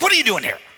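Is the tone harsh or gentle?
harsh. It is said in a harsh, accusing tone.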